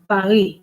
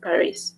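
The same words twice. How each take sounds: First: The final S sound is silent. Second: The final S sound is pronounced. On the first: This is the French way of saying it. "With the French, that S it's silent. They say Paris" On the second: This is the English way of saying it. "In English, the English we say Paris"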